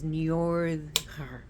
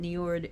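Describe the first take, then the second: First: The R is rolled and the D soft. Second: The R is plain and the D hard. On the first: This is the name's original pronunciation. "his pronunciation is Njordr" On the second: This is how it is commonly said in the USA. "we pronounce it Njord in here in the U S A"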